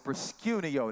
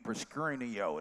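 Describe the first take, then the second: First: It is said plainly, with no added r. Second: It has a Memphis accent, with an r added.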